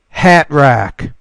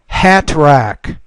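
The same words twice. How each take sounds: First: The T is a glottal stop. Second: The T is fully pronounced. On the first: "the second time I'll do it with the glottal stop" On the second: "I'll pronounce the T the first time"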